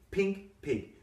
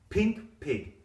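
Both takes have the same delivery.

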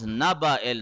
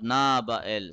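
First: The vowel after the n is kept short. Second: The vowel after the n is drawn out long. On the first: The speaker calls it right. "This is naba il" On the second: The speaker calls it wrong. "not naba il"

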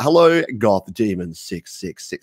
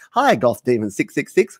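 First: It is said in a dramatic, epic put-on voice. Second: It is said in his normal lispy voice.

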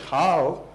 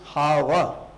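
First: The word ends on a consonant, with no final vowel. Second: The word ends with an added final vowel sound. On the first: This is the Hindi reading of the word. "When you're using it in Hindi, you read it as how" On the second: This is the Sanskrit reading of the word. "when you're reading this in Sanskrit, it is hava"

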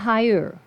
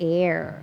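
First: The word begins with an audible h sound. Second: The word begins directly with a vowel sound. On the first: The speaker calls it wrong. "คำนี้ไม่อ่านว่า" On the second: The speaker calls it right. "มันออกเสียงเป็น"

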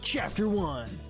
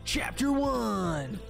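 First: It is said flatly, without dramatic emphasis. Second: It is said with dramatic, energetic emphasis. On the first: The speaker calls it wrong. "instead of saying Chapter 1" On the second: The speaker calls it right. "Sounds cooler saying it like that"

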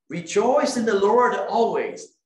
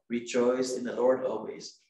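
First: It is read with joyful expression. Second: It is read flatly, without joy.

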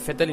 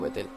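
First: The name is pronounced the German way. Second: The name is pronounced the Spanish way. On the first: This is how it is said in Germany. The speaker calls it right. "En Alemania se dice Vettel" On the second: This is how it was said in Spain. The speaker calls it wrong. "y no Vettel"

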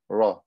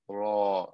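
First: The vowel is cut short. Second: The vowel is stretched out long. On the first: The speaker calls it wrong. "If I didn't pronounce them with mad, they wouldn't come out. I would just say" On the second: The speaker calls it right. "I have to stretch them"

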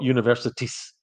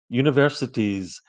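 First: The word ends with an s sound. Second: The word ends with a z sound. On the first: The speaker calls it wrong. "not s" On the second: The speaker calls it right. "it's z"

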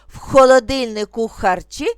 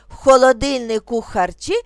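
The two takes are said the same way.

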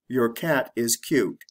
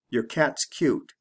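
First: The word 'your' is said slowly and in full. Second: The word 'your' is said quickly and reduced. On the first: "I'll say it the slow way" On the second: "Then I'll say it the fast way"

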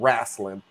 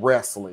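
First: The word has a Southern pronunciation. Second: The word has a standard pronunciation. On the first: "me saying wrestling" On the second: "instead of wrestling"

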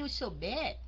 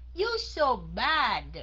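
First: The last vowel is closer, sounding like bed. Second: The last vowel is open, sounding like bad. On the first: The speaker calls it wrong. "Chứ không phải ... Bed là gì?" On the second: The speaker calls it right. "bắt buộc mình phải há miệng ra"

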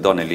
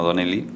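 First: The stress is on the first syllable. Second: The stress is on the second syllable. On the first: The name is Irish. The speaker calls it right. "mi apellido es Donnelly" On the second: The name would be Italian. The speaker calls it wrong. "no Donnelly, no es italiano"

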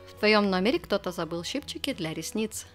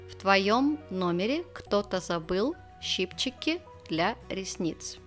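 First: The sentence is said fast. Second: The sentence is said slowly.

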